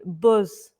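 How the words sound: It is said in a Yorkshire accent. "When they hear Yorkshire accent, where you were saying"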